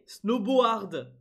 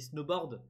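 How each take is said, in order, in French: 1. Le mot se lit avec les sons de l'orthographe française. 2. Le mot se prononce à l'anglaise, comme d'habitude. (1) "si tu le prononces à la française" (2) "on dit snowboard"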